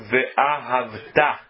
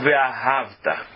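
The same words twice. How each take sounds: First: The stress is on the final syllable. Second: The stress is on the second-to-last syllable. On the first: It is a command to love, now and in future. The speaker calls it right. "o correto é dizer ve'ahavta, é oxítona a palavra" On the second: It says the loving happened in the past. The speaker calls it wrong. "e não ve'ahavta, paroxítona"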